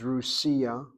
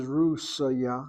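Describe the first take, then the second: First: "Rusia" slow, as ru-SI-a; feminine form contrasted. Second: "Rusya" slow, RUS first, then ya; country name contrasted. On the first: Teacher showing the feminine form, "Rusia" slowly as ru-SI-a. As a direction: draw out the SI in "Rusia". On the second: Teacher showing the difference for the country, "Rusya" as RUS-ya. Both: Shown as a demonstration. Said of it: "you see the difference?".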